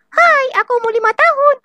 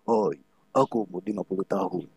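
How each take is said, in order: First: The voice sounds like a small child. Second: The voice sounds like a fifty-year-old adult.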